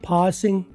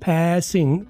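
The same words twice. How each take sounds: First: The first vowel is like 'a' in 'father'. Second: The first vowel is like 'a' in 'cat'.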